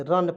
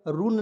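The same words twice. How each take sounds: First: रन said as "run" with a short a; correct reading. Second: रून said as "roon" with a long u; रून read "roon", the wrong way to say run. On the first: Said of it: "रन पढ़ेंगे". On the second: Teacher warns students not to say रून as "roon". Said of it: "रून नहीं पढ़ेंगे". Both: Shown as a demonstration.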